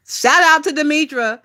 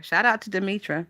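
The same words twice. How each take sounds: First: Higher, punchy shout-out with OUT stressed; big up Demetra with a lift; bright emphatic praise, stress on "out"; hyped shout-out. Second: Much softer, falling repeat of the shout-out; softer closing shout-out. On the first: Emphatic shout-out to favourite streamer. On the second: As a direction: let the praise settle quietly. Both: Real, not acted.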